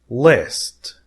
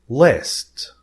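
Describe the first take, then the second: Both takes have the same delivery.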